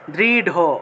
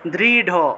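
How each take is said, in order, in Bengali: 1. শেষ ব্যঞ্জনটি মহাপ্রাণ d। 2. শেষ ব্যঞ্জনটি মহাপ্রাণ d।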